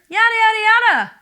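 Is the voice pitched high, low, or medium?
high. It is at a higher pitch than normal. "You can do this higher"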